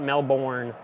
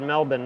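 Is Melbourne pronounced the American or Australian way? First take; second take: American; Australian. First: It is said with an American pronunciation. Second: It is said with an Australian pronunciation. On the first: The speaker calls it wrong. "not Melbourne, like Americans" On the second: The speaker calls it right. "I said it right"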